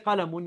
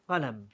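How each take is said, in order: First: The word ends with a pronounced 'un' ending. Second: The word stops on the final consonant. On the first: The speaker calls it wrong. "You don't say qalamun" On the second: The speaker calls it right. "you say qalam"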